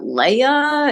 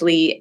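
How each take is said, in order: First: It is said as two syllables, lay-uh. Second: It is said as one syllable, lee. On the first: The speaker calls it wrong. "I hear people say, "Is that Leia?" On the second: The speaker calls it right. "it's Lee"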